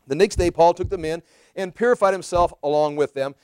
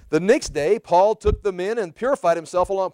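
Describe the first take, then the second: First: It is read in a serious, sincere tone. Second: It is read in a mocking, questioning tone. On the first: The advice is taken as genuinely good. "a little more serious note" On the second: The advice is doubted. "I'm reading this with a tone of mockery in my voice, questioning"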